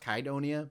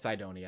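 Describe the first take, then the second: First: The name begins with a K sound. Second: The name begins with an S sound. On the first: "written with a K as in a, instead of a C, so I don't know if it's supposed to be pronounced Kydonia" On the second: "but I call it Cydonia"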